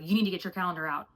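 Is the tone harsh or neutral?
harsh. It is said in a harsh, commanding tone.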